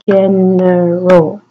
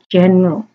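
First: The word is said with three syllables. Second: The word is said with two syllables. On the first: The speaker calls it right. "it should be general. So three syllables" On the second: The speaker calls it wrong. "I didn't pronounce this second vowel group here"

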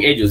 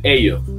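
First: The final s sound is pronounced. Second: The final s sound is dropped. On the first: This is the usual way to say it. "ellos no dicen ellos" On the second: This is how Nicaraguans say it. "se comen las eses, pronuncian la i"

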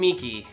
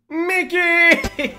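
First: It is said hesitantly with little energy. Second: It is said loudly with lots of energy.

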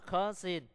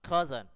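First: The middle consonant is a hissing s sound. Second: The middle consonant is a buzzing z sound. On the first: The speaker calls it wrong. "chúng ta không phát âm là cousin" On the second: The speaker calls it right. "mà phải phát âm là cousin"

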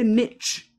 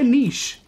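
First: The word is said in the American pronunciation. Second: The word is said in the non-American pronunciation. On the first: The speaker calls it wrong. "Why do they say niche?" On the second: The speaker calls it right. "Just say niche"

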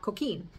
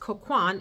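First: The name ends with an 'een' sound. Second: The name ends with an 'an' sound. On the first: The speaker calls it wrong. "and not Coquine" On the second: The speaker calls it right. "I learned that it's Coquan"

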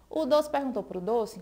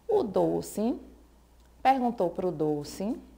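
First: It is spoken very quickly. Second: It is spoken at a normal, unhurried pace.

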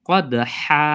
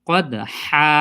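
No difference in how they are said.

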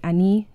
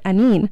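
First: The word ends on a vowel, without the N. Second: The word ends with an N sound.

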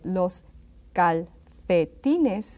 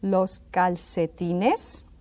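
First: The c is said with a th sound. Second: The c is said with an s sound.

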